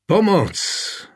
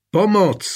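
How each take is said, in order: First: High, desperate shout of Pomoc; desperate cry for help. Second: High, louder desperate shout of Pomoc; desperate cry again. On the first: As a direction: call out for help in despair. (zoufalé volání o pomoc) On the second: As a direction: cry out harder, fearing no one hears. (hlasitější zoufalé volání) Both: A narrator's reading. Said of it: "vykřikl zoufale".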